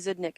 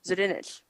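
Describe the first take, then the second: First: The name is said short, as two syllables. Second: The name is said longer, with an extra syllable. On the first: The speaker calls it wrong. "I always say Zudnik" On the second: The speaker calls it right. "That's actually how you say it"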